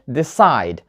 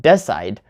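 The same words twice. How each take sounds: First: Decide as de-CIDE, first syllable weak; stress on second syllable. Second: Decide as DE-cide, first syllable strong; wrong first-syllable stress. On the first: Teacher showing the right way, decide stressed on CIDE. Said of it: "The stress is on the second syllable". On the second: Teacher showing the wrong way, decide stressed on DE. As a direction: lean on DE in decide. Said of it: "not decide". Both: Shown as a demonstration.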